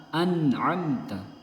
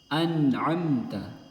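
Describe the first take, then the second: The two takes are said the same way.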